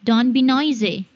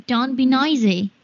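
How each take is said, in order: No difference in how they are said.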